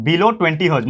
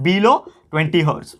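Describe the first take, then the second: First: Said in the usual way. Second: Each word drawn out slowly for notes; spelling it out for the class, very slow; slow dictation. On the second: Shown as a demonstration. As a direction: dictate it slowly so they can write. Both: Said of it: "तो इसका कितना होता है?".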